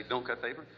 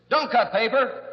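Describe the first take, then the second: First: Said in the usual way. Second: High, loud order to the patient; mock shouted command. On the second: Therapist orders his patient to stop cutting paper, mock shout. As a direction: bark it out as the comic cure.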